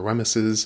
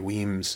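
First: The name is said with three syllables. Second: The name is said with one syllable. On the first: The speaker calls it wrong. "or Wemyses" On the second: The speaker calls it right. "but yeah, Lady Weems Jig"

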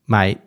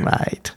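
First: It is said in an angry, annoyed tone. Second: It is said in a mock-disapproving, amused tone. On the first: The listener has done something wrong and must fix it. "You didn't sound happy" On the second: The listener did something inappropriate that is secretly funny. "something slightly inappropriate that you kind of think is funny, but you can't really acknowledge"

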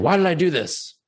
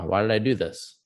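First: The question sounds harsh and judgmental. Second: The question sounds gentle and curious. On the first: The speaker is berating themselves. The speaker calls it wrong. "the judgment" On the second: The speaker is kindly exploring their own motives. The speaker calls it right. "that sense of compassion and curiosity"

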